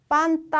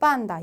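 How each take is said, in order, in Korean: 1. n 뒤의 자음은 t 소리입니다. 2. n 뒤의 자음은 d 소리입니다. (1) "빤따 아니고" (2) "빤다 이런 식으로 가는 거"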